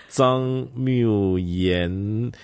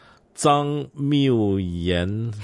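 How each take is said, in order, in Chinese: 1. 名字以前鼻音 n 结尾。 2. 名字以前鼻音 n 结尾。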